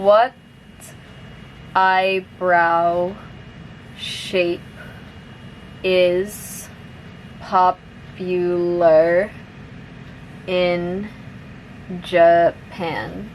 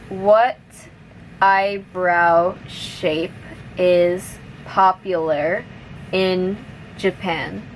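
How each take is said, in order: First: The sentence is spoken slowly. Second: The sentence is spoken at moderate speed. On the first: "I'll say it slowly first" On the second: "now a little bit faster"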